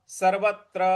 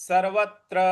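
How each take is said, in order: The two takes are said the same way.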